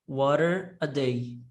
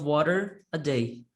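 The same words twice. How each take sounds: First: The words run together without a break. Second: A short break separates water from a day. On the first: "é a junção das palavras water a day" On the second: "A gente separa o water para um lado e o a day para outro lado"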